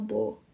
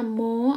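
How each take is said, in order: First: The word begins with a b sound. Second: The word begins with an m sound. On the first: "ada yang bilangnya bo, dia kayak b gitu loh" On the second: "ada yang bilangnya mo"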